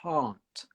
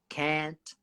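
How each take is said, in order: First: It is said in a British accent. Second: It is said in an American accent. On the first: "English, it's a different pronunciation" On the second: "in America, they would say can, can't, really similar sound. Uh, it's just a slight T on the end"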